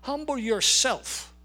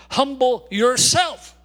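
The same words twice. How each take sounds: First: Slow, gentle, pleading. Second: Loud, slow, each word pressed down; emphatic command. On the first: Preacher repeats the command softly. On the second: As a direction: order the church to humble itself. Preacher commands the congregation. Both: Acted.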